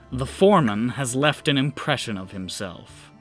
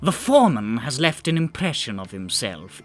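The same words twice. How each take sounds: First: It is said in the speaker's ordinary voice. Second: It is said in a put-on character voice.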